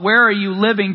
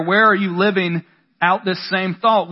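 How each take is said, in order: First: "Where" hit first and hardest, the phrase falling; pointed question with weight on "Where"; stress on WHERE. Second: "are" leaned on, the rest even; questioning with weight on "are"; stress on ARE. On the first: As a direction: punch "Where" in "Where are you living?". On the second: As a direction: press on the word "are" in "Where are you living out this same thought". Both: Shown as a demonstration.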